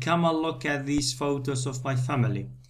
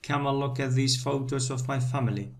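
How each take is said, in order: First: Key words are stressed; small words are weak. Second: Key words are stressed; small words are weak.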